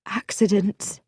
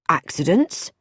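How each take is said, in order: First: Hesitant woman. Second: Pointed query with rising end; sharp. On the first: Acted. Moira hints at attempts on her life, hesitant. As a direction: offer it tentatively, as an uneasy admission. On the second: A narrator's reading. Bobby questions Moira's word, sharply. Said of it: "said Bobby sharply".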